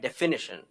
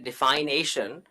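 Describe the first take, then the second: First: A couple of the vowels are changed. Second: The vowels of define and ation are kept. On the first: The speaker calls it right. "A couple of vowels are changed" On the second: The speaker calls it wrong. "if I just juxtapose those two in my speech and say defination"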